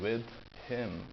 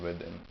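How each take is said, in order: First: The two words are said separately. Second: The two words are joined together. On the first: The speaker calls it wrong. "instead of saying with him, which is an extra verb" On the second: The speaker calls it right. "I'm just saying with him. Right? So we are joining sounds"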